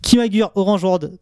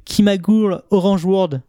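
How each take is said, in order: First: "Kimagure Orange World" in a very French accent; thick French accent. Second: "Kimagure Orange World" slowly, aiming at the original title; "Kimagure" said carefully as a foreign name; original-title pronunciation. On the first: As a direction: say the title as a Frenchman would. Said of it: "avec mon accent bien français". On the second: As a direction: say "Kimagure" with an oo vowel. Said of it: "si je vous dis". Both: Shown as a demonstration.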